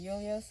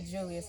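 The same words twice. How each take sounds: First: The name begins with a 'y' sound. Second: The name begins with a 'j' sound. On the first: This is how Germans say it. "instead of Julius" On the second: This is how English speakers say it. "as an American, maybe not because you would say Julius"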